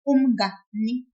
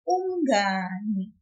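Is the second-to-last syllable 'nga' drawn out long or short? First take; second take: short; long. First: The syllable 'nga' is short and choppy. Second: The syllable 'nga' is drawn out longer. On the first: The speaker calls it wrong. "If I didn't pull it, it would sound weird, like this" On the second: The speaker calls it right. "We want to hear"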